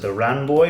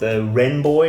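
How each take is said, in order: First: The vowel sounds like the 'a' in 'ran'. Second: The vowel sounds like the 'e' in 'ten'. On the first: This is how the locals pronounce it. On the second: This is the usual pronunciation.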